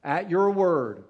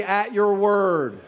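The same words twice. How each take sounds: First: Slow and softer, each word placed; key phrase, softer. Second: Slow, loud, every word leaned on; key phrase. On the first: Preacher repeating the key phrase to the congregation, slow and softer. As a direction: let the phrase land gently. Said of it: "That's the key phrase right there". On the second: Preacher leading the congregation in the key phrase, slow and loud. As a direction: lead the crowd slowly through it. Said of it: "everybody say". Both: Shown as a demonstration.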